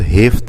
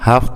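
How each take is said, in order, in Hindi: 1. पहला स्वर छोटा 'i' है। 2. पहला स्वर खुला 'a' है। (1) "हे के नीचे ज़ेर के साथ" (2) "हा के ऊपर ज़बर होती है"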